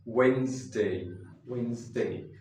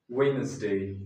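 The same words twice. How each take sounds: First: Wednesday said "WENZ-day", two syllables; Wednesday with silent d; correct way. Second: Wednesday said "WED-nez-day", three syllables; Wednesday with the d and middle e said; wrong way. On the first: Teacher models the correct Wednesday. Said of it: "this is Wednesday". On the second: Teacher shows the common mistake with Wednesday. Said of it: "This is not Wednesday". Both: Shown as a demonstration.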